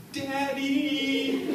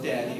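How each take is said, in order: First: High, drawn-out wail of "Daddy!"; wailing little girl. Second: Said in the usual way. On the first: Shown as a demonstration. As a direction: cry out "Daddy!" like a three-year-old in distress, stretched and high. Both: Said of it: "except it sounded like this".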